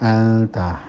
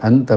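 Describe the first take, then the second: First: The n is hidden and nasalized before t. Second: The n is pronounced clearly before t. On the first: This follows the recitation rule of hiding the n. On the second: This is how it is said in everyday conversation.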